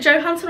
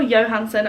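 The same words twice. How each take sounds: First: Johansson said with a hard J, like Joe-hanson; "Johansson" with an English J sound; English J pronunciation. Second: Johansson said with a Y, like Yo-hanson; Y pronunciation. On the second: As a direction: say Johansson starting as in "yo". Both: Shown as a demonstration. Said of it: "I hear people saying both".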